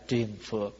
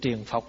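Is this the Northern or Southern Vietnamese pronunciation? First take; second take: Southern; Northern. First: The second syllable has an 'uo' vowel. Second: The second syllable has a short 'o' vowel. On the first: "nói theo người miền Nam là triền phược" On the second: "chữ triền phọc là người Bắc nói"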